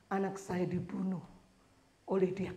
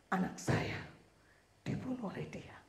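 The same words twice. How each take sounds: First: Said in the usual way. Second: Hushed, breathless whisper; whispered testimony. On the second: Retold or imitated. Mother testifies before the judge in a whisper. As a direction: lean in and whisper it like a secret.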